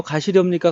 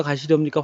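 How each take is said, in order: First: 가시렵니까 끝을 올려 되묻듯; 가시렵니까를 확인하듯 묻기; checking question. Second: Said in the usual way. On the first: Shown as a demonstration. (되묻는 억양으로) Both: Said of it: "가시렵니까 확인하고 있어요".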